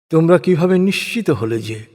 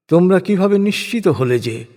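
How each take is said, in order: Both takes have the same delivery.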